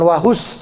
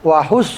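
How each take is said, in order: First: The s is a plain, light hissing sound. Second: The s is emphatic, with rounded, protruding lips. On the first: The speaker calls it wrong. "bukan wahus" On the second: The speaker calls it right. "tapi wahus sod. Mulutnya monyong makhraj sod itu"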